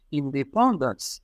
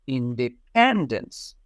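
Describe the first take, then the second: First: "independence" said slowly in a French accent, even stress, nasal "pan". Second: "independence" with the stress on "pen", falling at the end; correct English stress. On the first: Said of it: "Even if they say it with a French accent". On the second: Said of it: "they need to know that it's independence". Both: Shown as a demonstration.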